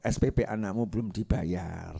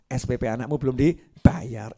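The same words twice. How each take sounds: First: Devil's whisper. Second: Said in the usual way. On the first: Acted. Devil whispering to a wife, low and sly. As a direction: murmur it like a devil in her ear. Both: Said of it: "setan bisi bojo".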